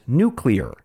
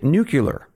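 First: It is said with no extra u sound: nu-clee-ar. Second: It is said with an extra u sound: nu-cu-lar. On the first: "that's how Cam wants me to say it" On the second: "others say it nuclear, and that's how President Dwight Eisenhower said it too"

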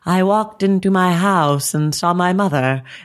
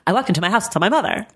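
First: It is said at normal speed. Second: It is said fast, sped up.

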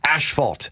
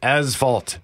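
First: The first syllable has an sh sound. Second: The first syllable has a plain s sound. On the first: The speaker calls it wrong. "not asphalt" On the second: The speaker calls it right. "there is no H after the S. It is pronounced asphalt"

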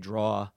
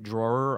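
First: The word is said in a New York pronunciation. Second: The word is said in a standard pronunciation. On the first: "that New Jersey, New York thing" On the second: "instead of saying drawer"

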